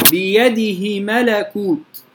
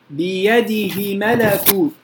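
First: بيده ملكوت recited slowly with the ha short; بيده ملكوت, keep the ha of بيده short; short ha recitation; short reading. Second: بيده ملكوت recited slowly with the ha stretched; بيده ملكوت, draw out the ha of بيده; lengthened ha recitation; lengthened reading. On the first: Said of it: "في القصر". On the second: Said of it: "هذا الإشباع". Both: Shown as a demonstration.

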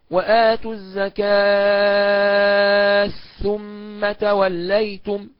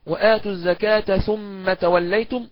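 First: "الزكاة ثم" with the تاء merged, slow and chanted; chanted, merge the تاء of "الزكاة" into "ثم", drawing it out; assimilated, chanted. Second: "الزكاة ثم" with the تاء pronounced clearly; clear pronunciation. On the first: Teacher demonstrating idgham, slow chanted recitation. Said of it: "هكذا". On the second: Teacher demonstrating izhar, slow recitation. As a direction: say the تاء of "الزكاة" distinctly before "ثم". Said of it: "هكذا قرأها بالإظهار". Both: Shown as a demonstration.

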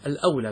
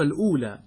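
First: "الأولى" with fatha on the hamza, al-awlā. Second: "الأولى" with damma on the hamza, al-ūlā; misprinted vowel. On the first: Teacher correcting the printed text for students, "الأولى" as al-awlā. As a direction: open "الأولى" with an "aw" diphthong, al-awlaa. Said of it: "بفتح الهمزة وليس بضمها". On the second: Teacher reading out the printed misprint, "الأولى" as al-ūlā. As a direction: say "الأولى" with a long oo, al-oolaa. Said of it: "لكن هذا يبدو أنه غير صحيح". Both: Shown as a demonstration.

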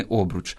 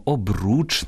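First: Обруч stressed on the first syllable, ОБ-; wrong stress. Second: Обруч stressed on the final -РУЧ; stress on last syllable. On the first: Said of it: "а не обруч". (наголос на першому складі: обруч) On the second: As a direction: hit the second syllable of обруч. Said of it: "на останній склад". (наголос на останньому складі: обруч) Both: Shown as a demonstration.

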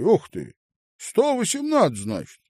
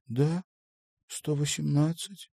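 First: Loud, high-pitched amazement; surprised exclamation. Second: Higher voice at ordinary volume, unexcited; modest confirmation. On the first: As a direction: marvel loudly at the total. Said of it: "он удивлённо качнул головой". (удивлённо, высоко и громко) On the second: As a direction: confirm the number without fuss. She confirms his amazed question. (скромно подтвердить, без нажима) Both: A narrator's reading.

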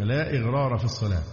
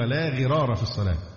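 First: "إغرار" said with a glottal stop and i, as i-ghrar; the form being corrected, "إغرار" with a hamza before the gh; wrong form ighrar. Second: "غرار" said with no hamza, starting straight on gh, as ghirar; the corrected reading "لا غرار", no i-sound before it; the right form, "غرار" opening directly on the gh. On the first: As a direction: quote the mistaken reading "لا إغرار". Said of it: "فقال: 'إنما هو لا غرار في الصلاة'". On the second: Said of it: "إنما هو لا غرار في الصلاة". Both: Retold or imitated.

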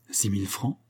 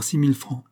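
First: SIX MILLE FRANCS softer, rising at the end; questioning echo. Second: Said in the usual way. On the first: A narrator's reading. Client querying the agent's total, questioning echo.

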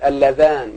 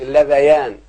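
First: اللذان with no ya sound, ending in a long -aan; correct dual form. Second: اللذيان with an added ya before -aan; incorrect dual form. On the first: Teacher showing pupils the right form, اللذان without the ya. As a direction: say اللذان as alla-dhaan. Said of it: "تقول". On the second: Teacher warning pupils off a wrong form, اللذيان with ya. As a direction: say اللذيان as alla-dha-yaan. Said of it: "ما تقولش". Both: Shown as a demonstration.

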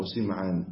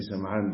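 First: سمعان as Sim'an, i after the s; kasra on sin. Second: سمعان as Sam'an, a after the s; fatha on sin. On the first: Teacher giving the name's other reading, سمعان with kasra. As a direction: narrow the first vowel of سمعان to a short i. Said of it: "بكسر السين". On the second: Teacher giving the name's first reading, سمعان with fatha. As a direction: open the first vowel of سمعان to a short a. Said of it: "بفتح السين". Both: Shown as a demonstration.

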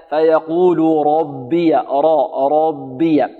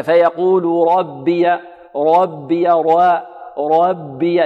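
First: Slow فيقول ربي with a full, thick ر; ربي with rounded heavy ر and thin ب; heavy ra, light ba. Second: Slow فيقول ربي with the ر thinned; ربي with a light, fronted vowel after ر; wrongly light ra. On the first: Teacher correcting so each letter gets its due, heavy-ra demo. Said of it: "يعطي". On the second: Teacher showing students the mistake, thinned-ra demo. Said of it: "فيقول هكذا". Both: Shown as a demonstration.

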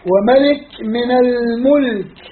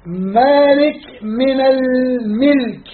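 First: الملك said almulk with a u on the m, slowly; damma on mim. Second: الملك said almilk with an i on the m, very slowly; kasra on mim. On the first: Teacher contrasting two vowels on the mim, slow. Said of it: "ضم الميم". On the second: Teacher contrasting two vowels on the mim, very slow. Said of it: "هاي كسر الميم". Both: Shown as a demonstration.

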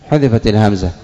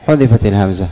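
Both takes have the same delivery.

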